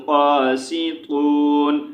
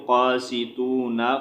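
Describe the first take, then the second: First: "क़ासितून" slowly, closed on a silent-vowel n; pausal reading. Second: "क़ासितूना" with final na sounded; quicker "क़ासितूना", open vowel after the n; non-pausal reading. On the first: Teacher showing how to read at a stop, pausal "क़ासितून". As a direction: hold the oo of "क़ासितून" and end on n. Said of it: "साकिन कर देंगे वक़्फ़ की सूरत में". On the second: Teacher showing the form without a stop, connected "क़ासितूना". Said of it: "अगर वक़्फ़ नहीं करेंगे तो". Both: Shown as a demonstration.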